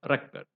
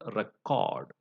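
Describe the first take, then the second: First: The stress is on the first syllable. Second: The stress is on the second syllable. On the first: It is a noun. "used as a noun, the stress is on the first syllable" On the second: It is a verb. "used as a verb ... The stress is on the second syllable"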